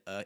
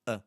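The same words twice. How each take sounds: First: Fully manifested "uh"; open, projected "uh", not reduced; outward A. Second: Short, reduced "uh"; unstressed "uh", held back; inward A. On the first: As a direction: push the "uh" outward. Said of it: "not this outward, really manifested". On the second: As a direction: keep the "uh" small and inward. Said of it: "It's kind of inward". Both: Shown as a demonstration.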